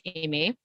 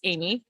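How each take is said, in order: First: The name is said with a French pronunciation. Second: The name is said with an English pronunciation. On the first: The caller is upset or wants attention. "he calls me Aimé in French" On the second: The caller is relaxed and everything is fine. "when he's just talking to me and it's just fine, it's Amy"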